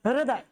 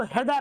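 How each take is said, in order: First: हृदय said as "hri-da-ye", with the r sounded; हृदय with a clear r after the h; correct reading. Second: हृदय said as "hedaye", with h and no r; हृदय read as "he-da-ye", dropping the r sound; common misreading. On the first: Teacher giving students the correct reading: हृदय with the r sounded. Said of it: "क्या पढ़ा जाता है?". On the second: Teacher showing students the usual wrong reading: हृदय as "hedaye". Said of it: "Actually में हृदय नहीं पढ़ा जाता है". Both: Shown as a demonstration.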